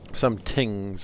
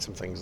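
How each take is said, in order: First: The word begins with a plain T sound. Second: The word begins with a TH sound. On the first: The speaker calls it wrong. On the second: The speaker calls it right.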